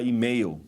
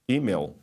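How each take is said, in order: First: It is said with a Brazilian Portuguese accent. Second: It is said with an American English accent. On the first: This is the usual way in Brazil. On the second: The speaker has lived long in America.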